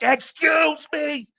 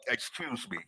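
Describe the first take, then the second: First: It is shouted very loudly. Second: It is said somewhat louder.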